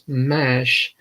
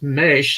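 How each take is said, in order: First: The vowel is the open 'a' of cash. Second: The vowel is the 'e' of fresh. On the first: The speaker calls it wrong. "I was pronouncing it wrong and thought it as mash" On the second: The speaker calls it right. "it was Mesh"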